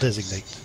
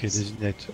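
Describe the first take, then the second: First: The word is said with an English accent. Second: The word is said with a French accent.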